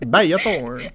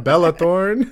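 First: The first name is said with a Y sound. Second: The first name is said with an L sound. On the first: The name is treated as Spanish. The speaker calls it wrong. "That's why I said it like that" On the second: The name is not Spanish. The speaker calls it right. "She's not Spanish"

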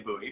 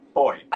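First: The word is said with two syllables. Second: The word is said with one syllable. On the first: This is the American way of saying it. "in America we say booty" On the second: This is the non-American way of saying it. "but boy"

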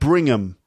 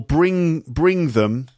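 First: The TH sound in them is dropped. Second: The TH sound in them is kept.

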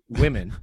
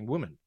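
First: It is said in an English accent. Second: It is said in a New Zealand accent. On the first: "I would be putting on an English accent to say women" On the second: "I'm saying woman, as in, there's lots of women"

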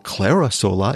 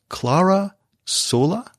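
First: The name is said the American way. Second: The name is said the non-American way.

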